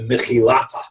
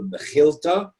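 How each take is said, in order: First: The name is said the older Aramaic way. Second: The name is said the modern Hebrew way. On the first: "More likely in Aramaic, it was pronounced" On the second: "that's in modern Hebrew"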